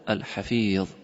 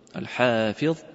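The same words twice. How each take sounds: First: The stress is on the second syllable of Hafiz. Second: The stress is on the first syllable of Hafiz. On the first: "ударение на второй слог" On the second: "ударение на первый слог"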